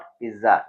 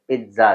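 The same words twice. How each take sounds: First: The middle consonant is a plain z sound. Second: The middle consonant is a ts sound. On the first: The speaker calls it wrong. "It's not पिज्जा" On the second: The speaker calls it right. "टी पी आई टी जेड ए, पिज्जा, the proper pronunciation"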